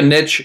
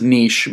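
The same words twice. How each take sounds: First: The word is said rhyming with rich. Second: The word is said without rhyming with rich. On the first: The speaker calls it wrong. "He pronounced it wrong" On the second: The speaker calls it right. "The word is niche"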